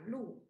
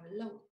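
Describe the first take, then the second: First: The word is pronounced with the vowel u. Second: The word is pronounced with the vowel ou. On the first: This is the reading used in written language. "trong văn viết thì chúng ta hay đọc là lụ" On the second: This is the reading used in spoken language. "trong khẩu ngữ thì nó sẽ đọc là lẩu"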